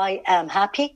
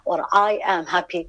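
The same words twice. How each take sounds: First: I am happy with a rising question tune on happy. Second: I am happy said fast as a flat statement; statement tune. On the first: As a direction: ask it, lifting at happy. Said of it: "question mark". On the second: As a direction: state it, settling down at the end. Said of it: "full stop". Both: Shown as a demonstration.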